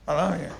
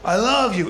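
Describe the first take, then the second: First: It is said haltingly, with a nervous repeated start. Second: It is said directly and plainly, without hesitation. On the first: The speaker is nervous and shy about the feeling. "You see how I could barely say it?" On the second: The feeling is stated openly and literally. "in their face. Very, very on the nose, very literal"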